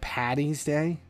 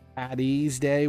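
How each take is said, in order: First: The middle consonant is a T sound. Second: The middle consonant is a D sound. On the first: The speaker calls it wrong. "not Patty's Day" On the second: The speaker calls it right. "with a D"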